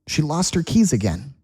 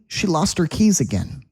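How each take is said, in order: No difference in how they are said.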